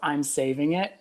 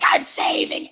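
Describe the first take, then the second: First: It is said in a plain, normal voice. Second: It is said in a Gollum impression voice.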